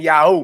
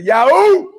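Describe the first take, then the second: First: Said in the usual way. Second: High, loud whoop, said like you mean it; excited yahoo. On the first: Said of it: "Y'all supposed to be saying". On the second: Shown as a demonstration. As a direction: belt it out with joy. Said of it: "say it like you mean it".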